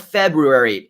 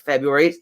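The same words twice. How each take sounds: First: The R after 'Feb' is pronounced. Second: The R after 'Feb' is dropped. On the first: "no second R, no more" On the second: "it's just February"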